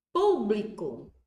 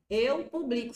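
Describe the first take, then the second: First: Público, slow and loud, stress on pú, PÚ-bli-co. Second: Eu publico with the stress on bli, pu-BLI-co. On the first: Teacher demonstrating to students Público, stressed on pú. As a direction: lean on the first syllable of Público. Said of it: "Se eu tirar o acento". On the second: Teacher showing the class the verb publico, stress on bli. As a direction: move the weight of publico to bli. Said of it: "fica verbo". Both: Shown as a demonstration.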